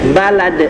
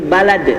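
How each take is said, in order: The two takes are said the same way.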